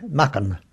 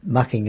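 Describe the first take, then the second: First: "Mucken" with the final G dropped; local Essex pronunciation. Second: Said in the usual way. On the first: Shown as a demonstration. Showing how Mucking people said it, local pronunciation. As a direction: end "Mucken" on a bare N, short vowel. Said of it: "they pronounced it then". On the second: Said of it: "the G is left out".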